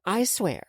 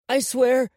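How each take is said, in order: First: Slightly raised measured prompt; dictating. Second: Put-on loud, high child's voice; upset boy. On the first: Woman feeds the boy his oath, dictating. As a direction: give the oath to be repeated. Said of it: "So repeat after me". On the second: Crying boy repeats the woman's oath, upset. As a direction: echo the oath under duress. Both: A narrator's reading.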